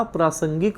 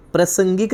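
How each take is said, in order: First: प्रासंगिक with long 'praa' at the start; प्रासंगिक said praa-sangik; correct long first vowel. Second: प्रासंगिक said as prasangik with short 'pruh'; प्रासंगिक mispronounced as प्रसंगिक; wrong short first vowel. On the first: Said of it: "प्रासंगिक होता है". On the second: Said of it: "प्रासंगिक नहीं होता". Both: Shown as a demonstration.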